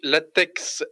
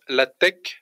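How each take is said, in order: First: The final X is said as spelled in French. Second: The final X is said as a Greek letter. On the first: The speaker calls it wrong. "Ça s'écrit latex" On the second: The speaker calls it right. "ça se prononce LaTeX parce que donc c'est du grec"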